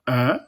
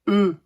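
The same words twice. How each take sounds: First: The vowel is said with the mouth open wide. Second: The vowel is said with rounded, closer lips. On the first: "on ouvre bien la bouche" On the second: "E comme dans deux"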